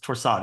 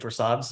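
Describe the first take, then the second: First: The word ends without an S sound. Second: The word ends with an audible S sound. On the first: The speaker calls it right. "you don't pronounce the S" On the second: The speaker calls it wrong. "if you say Torsades"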